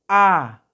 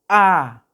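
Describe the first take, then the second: The two takes are said the same way.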